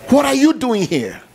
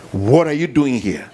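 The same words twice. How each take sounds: First: High, loud challenge from God; booming question. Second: Said in the usual way. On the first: Acted. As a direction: throw the question at them. God's question shouted, then repeated plainly.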